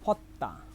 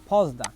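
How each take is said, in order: First: The middle consonant is a hard doubled 't'. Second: The middle consonant is a soft 'j' sound. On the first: "সঠিক উচ্চারণ ফত্তা" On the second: "আমি বলি আমি বলি ফজদা"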